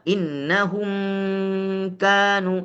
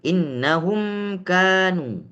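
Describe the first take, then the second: First: The m is held longer than one beat. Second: The m is held for about one beat. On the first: The speaker calls it wrong. "di atas satu harokat panjangnya juga salah" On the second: The speaker calls it right. "kira-kira satu harokat saja"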